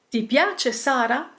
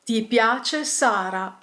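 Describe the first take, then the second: First: "Ti piace Sara" rising at "Sara"; question intonation. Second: Slow statement "Ti piace Sara", no rise at "Sara"; statement intonation. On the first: Teacher gives example question, rising intonation on "Sara". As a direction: ask it, lifting the end of "Sara". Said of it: "we can quickly turn these questions". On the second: Teacher turns question into statement, slow statement intonation ending down on "Sara". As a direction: state it slowly, letting "Sara" settle. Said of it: "simply changing the intonation". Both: Shown as a demonstration.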